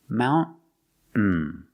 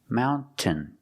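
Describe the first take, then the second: First: The middle T is stopped, not released. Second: The middle T is clearly released. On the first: "Or you can make a stop T" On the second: "You can say mountain, making the T sound"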